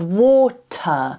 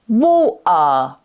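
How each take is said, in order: First: The t is pronounced as a clear t. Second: The t is replaced by a throat catch. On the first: "instead of water" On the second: "she might say water"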